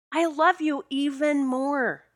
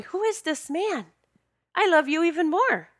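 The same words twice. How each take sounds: First: Slow, drawn-out, high-pitched gushing; emphatic adoration. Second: High-pitched retold wonder; amazed admiration. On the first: Retold or imitated. Woman repeating her love for her soulmate, emphatic adoration. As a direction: stretch out each word adoringly. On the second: Woman marvelling at her outspoken soulmate, amazed admiration. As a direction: gush in astonishment at your partner.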